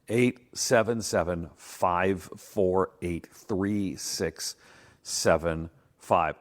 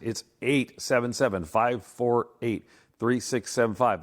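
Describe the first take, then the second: First: The number is said slowly. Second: The number is said fast.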